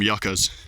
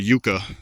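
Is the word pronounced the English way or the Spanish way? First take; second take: English; Spanish. First: The word is given an English pronunciation. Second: The word is given a Spanish pronunciation. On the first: "the people who speak English call them yuccas" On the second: "In Spanish, it would be more of a yucca"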